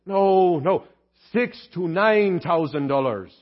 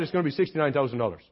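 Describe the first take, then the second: First: Put-on slow, spelled-out Irish accent; [name]. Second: Put-on fast, low Irish accent, words run together; [name]. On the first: Deacon clarifying the misheard price, slow Irish accent. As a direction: correct them word by word in an Irish brogue. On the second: Deacon quoting the repair price, rapid thick Irish accent. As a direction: toss it off quickly in a thick Irish brogue. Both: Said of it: "Your accent's a little thick".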